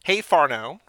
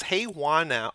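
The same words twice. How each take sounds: First: Farno said "FAR-no", a bit louder; name said phonetically as "Farno"; corrected name. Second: Juana read as "Hua-na", the first try; name read as "Juana" before the check; first guess at the name. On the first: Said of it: "phonetically Farno". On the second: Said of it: "I gotta figure out how she says this". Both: Shown as a demonstration.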